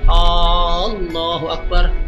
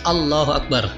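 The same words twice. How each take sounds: First: The opening vowel of Allah is drawn out long. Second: The opening vowel of Allah is kept short. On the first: The speaker calls it wrong. "hamzahnya lafadz Allah tidak boleh panjang" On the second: The speaker calls it right. "harus Allahu Akbar"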